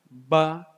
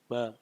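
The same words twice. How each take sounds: First: The vowel is said with the mouth wide open. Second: The vowel is said with the mouth barely open. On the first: The speaker calls it right. "Cara baca A, Ba" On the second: The speaker calls it wrong. "mulutnya nggak kebuka"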